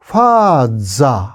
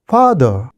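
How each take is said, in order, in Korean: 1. 일본어 가타카나식 발음으로 말해요. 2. 영어 발음으로 말해요.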